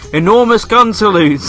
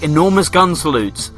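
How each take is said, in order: First: The title is shouted loudly. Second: The title is said at normal speaking volume.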